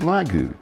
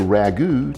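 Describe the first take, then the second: First: The word begins with an L sound. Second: The word begins with an R sound.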